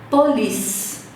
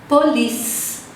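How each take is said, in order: Both takes have the same delivery.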